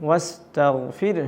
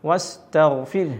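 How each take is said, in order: Both takes have the same delivery.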